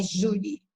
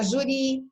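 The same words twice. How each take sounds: First: Júri said as JU-ri; stress on first syllable. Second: Juri said as ju-RI; stress on final syllable. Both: Shown as a demonstration. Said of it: "Não vai ficar juri".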